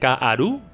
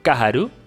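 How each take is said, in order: First: No h sound is heard in the middle. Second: An h sound is heard in the middle. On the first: The speaker calls it right. "Sin H" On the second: The speaker calls it wrong. "No, perdón"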